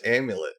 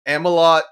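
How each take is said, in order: First: Said in the usual way. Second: AMALOT said loud and higher, ending in "lot"; mocking mispronunciation. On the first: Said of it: "can't pronounce amulet". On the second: Viewer mocking the promo announcer who can't pronounce amulet, mispronouncing "Amalot". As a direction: mimic a botched amulet as "Amalot", louder and higher. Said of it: "he really can't pronounce amulet".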